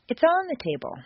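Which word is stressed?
on. The stress falls on the word on. It contrasts on the table with under it. "Changed intonation. ... making a distinction between two possible locations"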